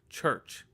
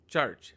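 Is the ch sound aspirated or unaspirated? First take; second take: aspirated; unaspirated. First: The ch sound is forceful, with a puff. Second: The ch sound is soft, without a puff. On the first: The speaker calls it wrong. "where you put a lot of force into the C H sound" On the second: The speaker calls it right. "say it in a soft manner"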